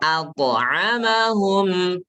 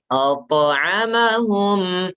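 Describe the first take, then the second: First: The opening vowel sounds thin, like a. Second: The opening vowel sounds thick, like o. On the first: The speaker calls it right. "A-nya tipis, jangan O" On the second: The speaker calls it wrong. "kalau hamzahnya ikut-ikutan tebal, salah"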